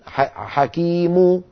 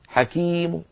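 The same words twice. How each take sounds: First: The final u vowel is full and loud. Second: The final u vowel is faint and lowered. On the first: The speaker calls it wrong. "ولا نقول حكيم هكذا ضم كبيرة لا" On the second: The speaker calls it right. "هكذا ضم صوتها منخفض"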